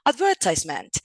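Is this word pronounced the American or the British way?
British. It uses the British English pronunciation. "But in British we will hear advertisement"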